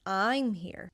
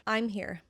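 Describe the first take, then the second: First: I'm leaned on hard and lengthened; stress on I'm. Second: Said in the usual way. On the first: Shown as a demonstration. Teacher contrasts English emphasis, stress on I'm. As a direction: punch the word I'm. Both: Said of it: "vocally stress the word".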